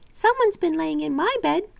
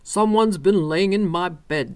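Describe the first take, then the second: First: It is said in a little wee bear voice. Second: It is said in a great big bear voice.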